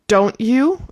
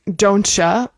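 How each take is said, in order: First: The T and Y are said as separate sounds. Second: The T and Y blend into a ch sound. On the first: "someone saying don't you" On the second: "don'tcha might be the way that they pronounce it"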